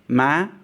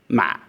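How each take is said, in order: First: The pitch rises over the syllable. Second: The syllable is heavy and constricted in the throat. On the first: It means cheek. "As a rising tone" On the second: It means a rice seedling. "A heavy or constricted tone"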